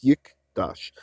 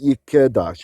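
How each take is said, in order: First: The k runs straight into d, no vowel. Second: A short vowel sounds between k and d. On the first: The speaker calls it right. "it's yikdash" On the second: The speaker calls it wrong. "It's not yikedash"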